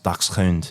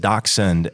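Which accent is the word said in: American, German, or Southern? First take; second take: German; American. First: It is said with a German pronunciation. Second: It is said with a standard American accent.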